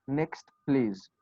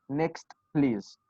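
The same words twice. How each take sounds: The two takes are said the same way.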